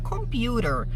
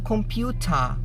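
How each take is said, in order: First: The t is softened into a quick flap. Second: The t is pronounced clearly and crisply.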